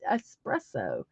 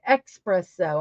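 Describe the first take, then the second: First: The word begins with an 'es' sound. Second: The word begins with an 'eks' sound. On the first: The speaker calls it right. "It's espresso. So I did correct that" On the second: The speaker calls it wrong. "I put an X, and I'm like, that's not right"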